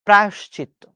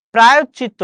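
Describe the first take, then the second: First: প্রায়শ্চিত্ত with a falling tune, clear sounds; the right প্রায়শ্চিত্ত, settled; correct pronunciation. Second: প্রায়শ্চিত্ত louder with a rising tune; the mistaken প্রায়শ্চিত্ত, rising; wrong pronunciation. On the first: (শুদ্ধ উচ্চারণে প্রায়শ্চিত্ত) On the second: (ভুল উচ্চারণে প্রায়শ্চিত্ত) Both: Shown as a demonstration. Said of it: "না".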